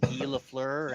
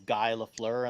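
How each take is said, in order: First: Guy sounds French, like ghee. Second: Guy sounds like the English word guy. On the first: The speaker calls it right. "then I found that it was Guy Lafleur" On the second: The speaker calls it wrong. "I'd pronounce it as Guy Lafleur"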